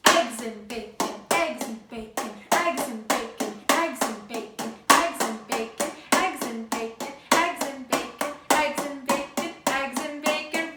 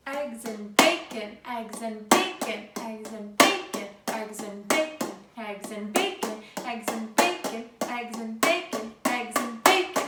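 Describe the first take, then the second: First: EGGS and bacon, chanted with eggs punched louder; rhythmic chant with the weight on "Eggs"; stress on eggs. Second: Rhythmic chant with the weight on "bacon"; stress on bacon. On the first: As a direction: clap it out, hitting eggs first. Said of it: "So now we're gonna do eggs and bacon". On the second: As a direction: clap it out, leaning on bacon. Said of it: "where is the emphasis for which word? ... if you said bacon". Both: Shown as a demonstration.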